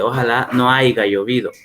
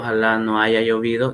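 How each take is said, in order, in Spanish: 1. El verbo se dice 'aiga', con g. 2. El verbo se dice 'haya', sin g. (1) "dice, ... es una mala pronunciación" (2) "En lugar de decir"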